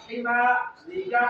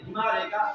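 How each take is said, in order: First: हिमारी का slowly, with मा held long; measured, slow हिमारी का; careful correct pronunciation. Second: हिमारी का rushed through with no long मा; हिमारी का without the stretched vowel; wrongly shortened vowels. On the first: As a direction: draw out the मा in हिमारी का. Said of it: "लफ्ज को अच्छी तरह अदा करना". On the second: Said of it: "ये भी गलत है". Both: Shown as a demonstration.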